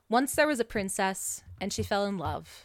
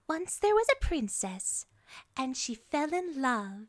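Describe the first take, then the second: First: It is said in an ordinary speaking voice. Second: It is said in a high character voice.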